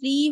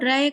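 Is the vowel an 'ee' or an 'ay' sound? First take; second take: ee; ay. First: The syllable ends in a long ee. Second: The syllable ends in an ay sound. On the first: "री होता है ना" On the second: "उसको रै करके पढ़ें"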